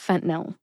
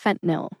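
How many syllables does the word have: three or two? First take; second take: two; two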